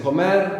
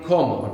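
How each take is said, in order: First: Comer with the stress on the last syllable, mer; stress on the end. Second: Como with the stress on the first syllable, CO; stress on the start. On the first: Teacher showing students stress on the end. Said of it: "we have the accent on the end". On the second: Teacher contrasting for students stress on the start. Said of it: "And then when it's I". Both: Shown as a demonstration.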